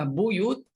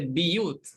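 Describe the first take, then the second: First: The first vowel is an u sound. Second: The first vowel is an i sound. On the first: "Kalimah buyut" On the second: "dia baca biyut"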